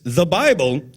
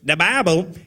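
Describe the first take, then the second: First: It is said in the speaker's ordinary voice. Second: It is said in a put-on imitation voice.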